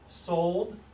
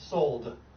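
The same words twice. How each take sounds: First: The final D is held back, barely heard. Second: The final D is clearly released and heard. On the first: "unarticulated, stopped" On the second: "That's articulated"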